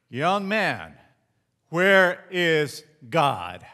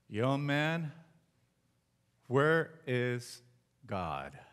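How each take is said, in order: First: The question is asked in a louder voice. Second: The question is asked at a normal, softer volume.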